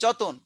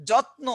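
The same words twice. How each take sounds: First: যতন with a vowel between t and n; simplified pronunciation jatan. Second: Said in the usual way. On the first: Shown as a demonstration. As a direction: say যতন as two easy syllables, jo-ton. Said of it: "উচ্চারণের সহজীকরণের জন্য বলছেন যতন". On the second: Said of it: "যত্ন শব্দটিকে অনেকে একটু পরিবর্তন করে".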